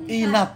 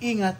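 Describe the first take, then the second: First: The 'ng' sound in the middle is dropped. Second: The 'ng' sound in the middle is pronounced. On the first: The speaker calls it wrong. "it will go inat" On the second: The speaker calls it right. "instead ingat"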